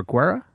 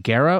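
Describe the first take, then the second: First: "Guerra" with a W glide, like GWAIR-uh; pronunciation with W. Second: "Guerra" begun with a plain hard G, like GAIR-uh; pronunciation without W. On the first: Host checking drummer's surname, "Guerra" as GWAIR-uh. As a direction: say "Guerra" starting GW, rising as a question. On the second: Host checking drummer's surname, "Guerra" as GAIR-uh. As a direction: say "Guerra" with no W glide after the G. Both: Shown as a demonstration. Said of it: "is that Guerra or Guerra?".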